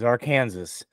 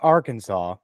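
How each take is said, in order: First: The word has a playful, nonstandard pronunciation. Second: The word has its standard pronunciation. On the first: "our favorite way to say it is Arkansas" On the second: "I know it's pronounced Arkansas"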